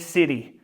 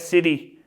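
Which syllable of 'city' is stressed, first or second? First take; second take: first; second. First: The stress is on the first syllable. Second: The stress is on the second syllable. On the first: The speaker calls it right. "meaning city" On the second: The speaker calls it wrong. "changing the, the stress from the first syllable to the second one"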